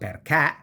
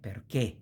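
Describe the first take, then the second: First: The final e vowel is open. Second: The final e vowel is closed. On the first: The speaker calls it wrong. "It's not" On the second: The speaker calls it right. "e is pronounced close"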